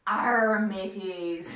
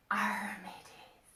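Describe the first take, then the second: First: Loud growled pirate arr; big pirate call, falling away. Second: Slow whispered pirate growl; hushed, drawn-out pirate arr. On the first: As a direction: hail the crew like a hearty pirate. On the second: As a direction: rasp it out softly like a pirate. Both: Pretend. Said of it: "what do pirates say?".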